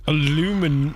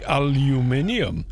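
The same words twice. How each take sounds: First: "alumin-" as uh-LOO-min; American aluminum. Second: "aluminium" as al-yoo-MIN-ee-um; British aluminium. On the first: Slipping into the original name, "alumin-" as uh-LOO-min. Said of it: "so it should be". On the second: The scientific community's version, "aluminium" as al-yoo-MIN-ee-um. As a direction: stress MIN and sound the ee-um in "aluminium". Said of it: "it should be aluminium". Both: Shown as a demonstration.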